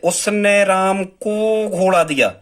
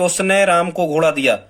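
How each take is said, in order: First: The word राम carries the stress. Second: The word उसने carries the stress. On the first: "मतलब हम राम पे जोर दे रहे हैं" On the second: "मतलब हम उसने पे जोर दे रहे हैं"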